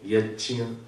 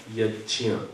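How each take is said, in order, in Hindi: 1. बीच का व्यंजन 'j' जैसी ध्वनि है। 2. बीच का व्यंजन 'j' जैसी ध्वनि है।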